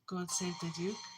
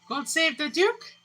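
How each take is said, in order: First: It is said softly and weakly. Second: It is said louder than before.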